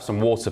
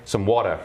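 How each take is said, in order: First: Water is said with a southern British accent. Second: Water is said with an American accent. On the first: The waiter does not understand the request. "You say water here in America, you go into a restaurant" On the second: The waiter finally understands the request. "eventually I have to say"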